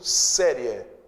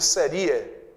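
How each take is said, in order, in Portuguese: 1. O acento cai na primeira sílaba. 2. O acento cai na sílaba i. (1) "Veja que o I é fraco" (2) "Se ele fosse forte, não seria série, seria"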